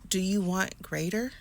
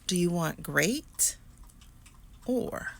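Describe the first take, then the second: First: It is said at a normal pace. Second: It is said very slowly.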